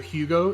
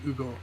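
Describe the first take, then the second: First: The opening H sound is pronounced. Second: The opening H sound is silent.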